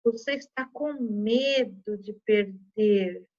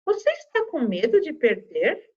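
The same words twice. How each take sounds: First: Slow, exclaimed "Você está com medo de perder?" with no question rise; admired surprise. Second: Rising question tune on "Você está com medo de perder?"; question intonation. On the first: Teacher showing the exclamation-mark reading, slow and surprised. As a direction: say it as an amazed exclamation. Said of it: "Aqui eu já vou estar admirada ou surpresa". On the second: Teacher reading the question aloud, rising tune. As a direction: ask it as a real question, voice rising. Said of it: "Tá vendo que fica em tom de pergunta". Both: Shown as a demonstration.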